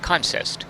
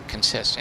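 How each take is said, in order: First: "Consist" tried out as CON-sist; front-stressed "Consist", CON-sist; stress on first syllable. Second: "Consist" tried out as con-SIST; end-stressed "Consist", kun-SIST; stress on second syllable. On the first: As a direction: hit the first syllable of "Consist", with a full vowel. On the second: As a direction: hit the second syllable of "Consist", first vowel reduced. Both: Shown as a demonstration. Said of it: "I don't know how you say it".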